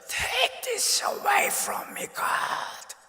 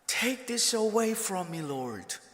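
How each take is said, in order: First: It is said as an anguished scream. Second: It is said with moderate loudness.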